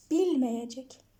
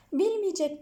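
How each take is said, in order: First: Bilmeyecek said slowly with a clear open e, "bil-me-ye-cek"; slow correct form. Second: Bilmeyecek said as "bilmiyecek", e narrowed to i; the sloppy spoken Bilmeyecek, shown as wrong; wrong narrowed form. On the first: Teacher slowly modelling the correct form for students. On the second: Teacher showing students the incorrect narrowed form. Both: Shown as a demonstration. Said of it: "Bilmeyecek değil".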